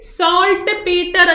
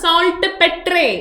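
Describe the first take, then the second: First: The second part sounds like 'peter'. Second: The second part sounds like 'petray'.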